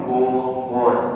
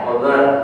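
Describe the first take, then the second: First: The vowels are said with rounded, pushed-out lips. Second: The vowels are said with unrounded, relaxed lips. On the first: "kalau mengucapkan Bogor monyong" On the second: "Kalau nggak monyong nggak enak ya?"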